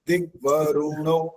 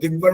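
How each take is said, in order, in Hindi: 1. r और n के बीच एक छोटा u स्वर है। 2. r सीधे n में जाता है, बीच में कोई स्वर नहीं। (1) "दिग्वरुणो बोलो" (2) "एकदम ऐसे नहीं बोलना"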